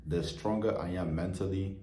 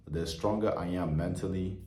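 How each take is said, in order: Both takes have the same delivery.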